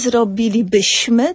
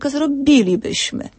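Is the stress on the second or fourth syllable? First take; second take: fourth; second. First: The stress is on the fourth syllable. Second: The stress is on the second syllable. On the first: The speaker calls it wrong. "Nie zrobilibyśmy" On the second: The speaker calls it right. "Tam się nawet na czwartą sylabę będzie przesuwał akcent"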